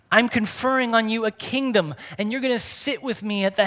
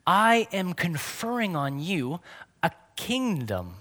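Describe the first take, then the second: First: Higher and louder, thrilled; "I'm conferring on you a kingdom" raised high and loud in delight; excited. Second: Said in the usual way. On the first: Real, not acted. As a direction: proclaim it with fresh wonder. Restates the verse with excitement.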